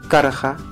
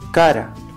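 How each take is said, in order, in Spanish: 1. El final conserva el sonido q antes de ra. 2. El final es un sonido ra simple.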